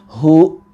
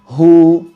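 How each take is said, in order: First: The vowel ends in an abrupt glottal catch. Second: The vowel is held briefly and fades smoothly. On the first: The speaker calls it wrong. "kita direm dengan mendadak dan menambahkan seperti ada huruf hamzah" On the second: The speaker calls it right. "dua harokat"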